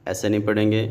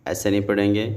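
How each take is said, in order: The two takes are said the same way.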